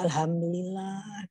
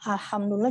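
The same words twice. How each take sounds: First: The h is a plain light breathy sound. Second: The h is a strong throaty pharyngeal sound. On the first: The speaker calls it wrong. "jadi alhamdulillah gitu" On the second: The speaker calls it right.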